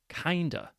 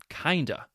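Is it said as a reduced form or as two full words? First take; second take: reduced form; reduced form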